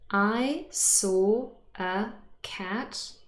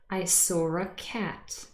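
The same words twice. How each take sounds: First: Each word is said separately, with no r. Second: Said fast, with an r between saw and a. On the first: The speaker calls it wrong. "Doesn't sound very natural. I said them individually" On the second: The speaker calls it right. "When I say this fast, it often sounds like this"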